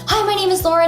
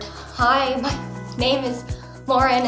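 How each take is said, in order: First: It is said quickly and in a rush. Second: It is said quietly and with reserve. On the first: "you tend to talk a little more quickly" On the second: "I would real quiet and reserved"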